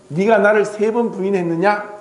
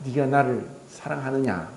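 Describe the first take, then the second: First: Reproachful question. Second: Jesus gently asking Peter, lower and softer, no reproach; tender question. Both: Acted. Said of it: "질책한 것이 아니라".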